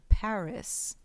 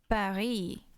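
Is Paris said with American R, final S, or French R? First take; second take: final S; French R. First: The final S is pronounced. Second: A French R is used and there is no final S. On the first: The speaker calls it wrong. "They say the S" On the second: The speaker calls it right. "everyone knows it's Paris"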